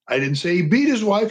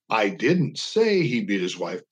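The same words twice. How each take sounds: First: The stress is on the word beat. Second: The stress is on the word say.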